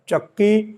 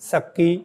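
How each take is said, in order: First: The word begins with a ch sound. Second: The word begins with an s sound. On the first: "च का उच्चारण स" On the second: "च का उच्चारण स"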